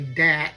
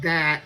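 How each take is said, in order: First: The word begins with a 'd' sound. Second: The word begins with a 'th' sound. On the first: "they say dat, D A T" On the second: "which is spelled T H A T"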